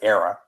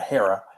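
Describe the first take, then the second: First: The name begins directly with a vowel. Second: The name begins with an h sound. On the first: The speaker calls it wrong. "I always pronounced it Era" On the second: The speaker calls it right. "but yeah, Hera"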